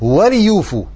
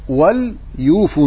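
First: The l sound is followed by a short i. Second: The l sound carries no following vowel.

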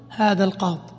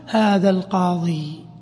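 First: The word ends without the final 'ee' vowel. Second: The word ends with a long 'ee' vowel. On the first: "ويجوز الوقف عليه بحذف الياء" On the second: "فالأفصح الوقوف عليه رفعا وجرا بالإثبات، بإثبات الياء"

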